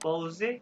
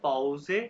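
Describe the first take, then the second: First: It ends with a sounded final e vowel. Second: The same.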